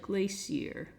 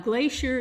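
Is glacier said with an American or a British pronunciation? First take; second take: British; American. First: It is said with a British pronunciation. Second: It is said with an American pronunciation. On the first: "the British pronounce it" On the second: "how Americans pronounce it"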